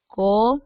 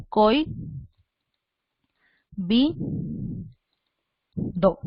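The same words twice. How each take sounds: First: Co-i-bi-do in four separate beats, co apart from i; four spaced syllables with the diphthong broken. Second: Coi, bi, do in three beats, coi kept as one syllable; three spaced syllables, diphthong in Coi unbroken. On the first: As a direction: split Co-i-bi-do as co... i... bi... do. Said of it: "los diptongos nunca se separan". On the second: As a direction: dictate Coi... bi... do with long pauses. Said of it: "tú vas a hacerlo así". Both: Shown as a demonstration.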